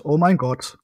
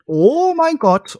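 First: Said in the usual way. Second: High, slow shriek of disbelief; shrieking jackpot winner. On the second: Real, not acted. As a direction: shriek it out like you just won big. Shocked at googled stats.

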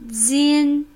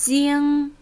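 First: "Jin" with the tongue tip right behind the front teeth; "Jin" ending on a light front n. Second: "jing" ending in a dark ringing ng like a bell; "jing" with a back ng that resonates like a bell. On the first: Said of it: "die vordere Zunge direkt neben den Zähnen". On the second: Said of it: "Die zweite Silbe ist ng, dunkel wie eine Glocke". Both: Shown as a demonstration.

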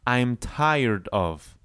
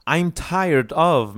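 First: Slow, drawn-out model phrase; slow drill phrase. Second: Louder and higher, still slow; emphatic drill phrase; louder, higher model. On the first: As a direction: say it slowly for students to copy. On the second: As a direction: lift it and project for the class. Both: Shown as a demonstration. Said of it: "like it would be like one word".

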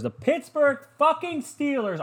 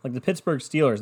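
First: Very high, slow, drawn-out mocking team name; mock announcer. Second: Said in the usual way. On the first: Shown as a demonstration. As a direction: hype it like a sarcastic announcer.

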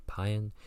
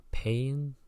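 First: "paean" in two syllables, PIE-an; corrected pronunciation. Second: "paean" as one syllable like "pain", pitch raised questioningly; tentative pronunciation. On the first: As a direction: sound out "paean" as PIE-un, with the first vowel as in "pie". Second try after spelling it out. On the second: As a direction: try "paean" as PAYN, unsure and higher. Unsure first try, then spells it. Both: Real, not acted.

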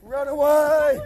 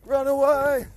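No difference in how they are said.

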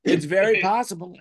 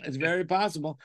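First: Very punched a little louder; stress on very. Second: Said in the usual way. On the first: Pretend. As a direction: lean on very, deadpan.

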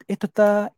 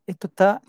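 No difference in how they are said.

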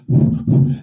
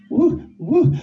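First: Breathy ear blowing. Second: High, teasing woo; playful high woo. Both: Pretend. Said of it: "blowing in your ear".

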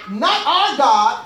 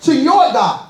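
First: Said in the usual way. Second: "your"를 세게 강조; 힘주어 "your"를 찍어 말하기; stress on your. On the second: Shown as a demonstration. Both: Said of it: "Listen at the words".

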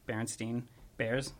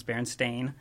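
First: Berenstein ending in "steen"; common mispronunciation. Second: Berenstain ending in "stain"; correct pronunciation. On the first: Co-host showing how many people pronounce it, Berenstein said as "steen". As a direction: say Berenstein with a long ee in the last syllable. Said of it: "pronounce it". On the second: Co-host correcting the common version, Berenstain said as "stain". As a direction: say Berenstain with a long ay in the last syllable. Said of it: "or how it's pronounced". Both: Shown as a demonstration.

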